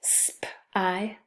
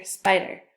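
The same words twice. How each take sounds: First: "sp-I-d-er" in pieces, sp, long i, d, er; sounded out. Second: Said in the usual way. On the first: Shown as a demonstration. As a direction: tap out "sp-I-d-er" with gaps. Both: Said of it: "So two syllables".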